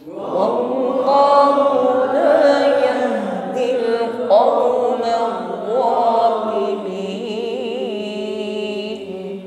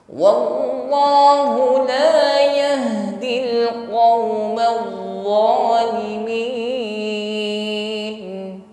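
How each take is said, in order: The two takes are said the same way.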